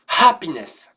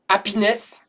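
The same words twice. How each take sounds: First: The initial h sound is clearly pronounced. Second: The initial h sound is dropped. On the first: The speaker calls it right. "c'est happiness" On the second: The speaker calls it wrong. "C'est pas happiness"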